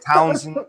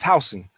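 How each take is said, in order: First: The name is said with an added n sound. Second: The name is said without an extra n sound. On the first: The speaker calls it wrong. "they're always like" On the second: The speaker calls it right. "it's Towson"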